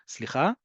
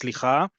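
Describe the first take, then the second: First: It is said in a nice, gentle tone. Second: It is said in an annoyed, impatient tone.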